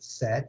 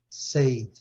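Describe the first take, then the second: First: The vowel differs from the vowel in 'say'. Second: The vowel sounds like the vowel in 'say'. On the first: The speaker calls it right. "Tem essa pronúncia diferente. É say, said, said" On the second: The speaker calls it wrong. "a gente tem é, é, a tendência a falar said"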